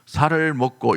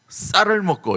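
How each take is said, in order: First: The first consonant is a plain, soft s. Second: The first consonant is a tense, strong s. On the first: The speaker calls it wrong. "살을 먹고 이러면 큰일 납니다" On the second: The speaker calls it right. "쌍시옷을 해야 되는데"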